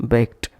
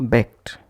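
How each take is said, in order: The two takes are said the same way.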